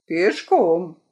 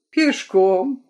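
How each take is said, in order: First: Пешком. falling and final; flat statement. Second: Пешком? asked with a rising tune; questioning rise. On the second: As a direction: lift the end of Пешком? in surprise. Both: Acted.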